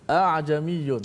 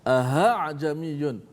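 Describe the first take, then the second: First: Only one glottal catch is heard at the start. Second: The second glottal catch is replaced by an h. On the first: "dia borong satu hamzah saja" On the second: "menukarkan hamzah kedua dengan ha"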